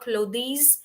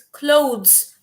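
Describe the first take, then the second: First: The word sounds clearly different from 'close'. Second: The word sounds almost the same as 'close'. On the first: The speaker calls it wrong. "it is not clothes" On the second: The speaker calls it right. "very much closer to the word close"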